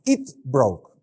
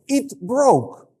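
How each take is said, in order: First: Said in the usual way. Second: Put-on high, loud little-kid voice; imitated kid, pitched way up; small child reporting. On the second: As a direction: announce it like a child running to daddy. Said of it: "they start speaking like this".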